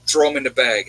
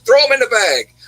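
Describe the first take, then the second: First: Said in the usual way. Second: Higher and louder, pushing the offer again; imitating the lady waving off the price; insistent repeat. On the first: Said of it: "And she's like". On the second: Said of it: "She's like".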